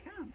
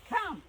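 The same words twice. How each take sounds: First: Said in the usual way. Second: High, loud call of Come!; loud command to a dog. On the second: Real, not acted. Calling dog louder.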